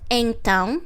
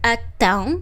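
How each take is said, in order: First: The first syllable is said in full, nasal. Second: The first syllable is shortened to a plain vowel. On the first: "you will listen Portuguese saying então"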